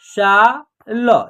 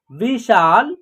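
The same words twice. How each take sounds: First: "शा ल" as separate drawn-out sounds; spelled out by syllable. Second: Said in the usual way. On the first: Shown as a demonstration. Teacher sounding out a word for learners, "शा ल" syllable by syllable. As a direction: break "शा ल" apart, very slowly. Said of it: "तीनों को जोड़ेंगे तो एक शब्द". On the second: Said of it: "इसका उच्चारण क्या होगा".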